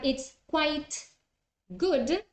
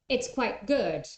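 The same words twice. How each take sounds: First: The t at the end of quite is pronounced. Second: The t at the end of quite is dropped.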